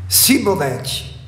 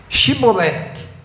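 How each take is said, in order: First: The word begins with a plain s sound. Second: The word begins with an sh sound. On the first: The speaker belongs to the tribe of Ephraim. The speaker calls it wrong. "Ela não conseguia pronunciar o Shi" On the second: The speaker belongs to the tribes of Gilead. The speaker calls it right. "Diga Shibolete"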